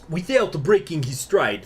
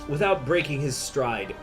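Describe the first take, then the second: First: It is said in a put-on Russian accent. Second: It is said in the speaker's plain accent.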